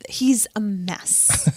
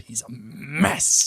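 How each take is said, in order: First: Slow, hushed, drawn-out conviction; weighty near-whisper, every word drawn out. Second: Slow, drawn-out sitcom character impression; lightly put-on voice, stretched out slowly; Selena Meyer. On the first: Shown as a demonstration. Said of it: "say it with conviction". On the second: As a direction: lean hard and long on MESS. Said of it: "doing more Selena Meyer from Veep".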